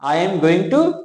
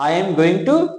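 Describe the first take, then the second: First: Every word of 'going to' is said separately. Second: Every word of 'going to' is said separately.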